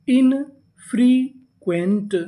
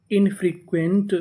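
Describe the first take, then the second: First: "infrequent" very slow, broken as in-free-quent; syllable by syllable. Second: Said in the usual way. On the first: Shown as a demonstration. Teacher sounds out the full word, "infrequent" slowly in three pieces. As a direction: stretch "infrequent" with a gap after each syllable. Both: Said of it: "पूरी meaning".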